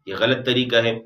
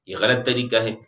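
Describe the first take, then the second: Both takes have the same delivery.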